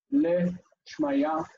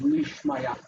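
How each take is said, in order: First: Le Shmaya with a plain short e; "Le Shmaya", the le sound kept short; unresolved form. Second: Li Shmaya with a long i, slow; "Li Shmaya", the li said as lee, slowly; resolved form. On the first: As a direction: say "Le Shmaya" with the uncontracted le. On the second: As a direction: stretch it out as "Li Shmaya". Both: Shown as a demonstration. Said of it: "Le Shmaya becomes Li Shmaya".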